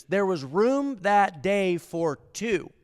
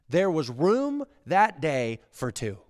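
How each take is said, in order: First: Slow, higher, drawn out; slow emphatic. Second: Slowed, firm statement; slow emphatic. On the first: Preacher repeats key line, slow and lifted. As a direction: stretch every word for weight. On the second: Preacher states key line, slow and firm. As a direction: lay it down slowly. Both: Acted.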